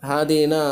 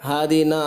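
The two takes are said the same way.

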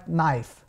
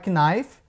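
First: The k is silent; it begins with n. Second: The k is sounded before the n. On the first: The speaker calls it right. "Então é knife" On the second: The speaker calls it wrong. "não é knife, porque o K também é mudo"

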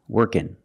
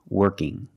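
First: It ends in a front n sound. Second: It ends in a back nasal ng sound. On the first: "workin with the n sound" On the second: "It's the sound mm, working"

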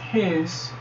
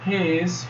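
First: It is said as one contracted syllable. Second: It is said as two full words. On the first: "forma contraída" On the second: "forma não contraída"

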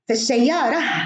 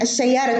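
First: The word ends with an h sound. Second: The word ends with a t sound. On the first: The speaker stops after the word. "وتنطق هاء في الوقف" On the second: The phrase continues after the word. "تنطق تاء في الوصل"

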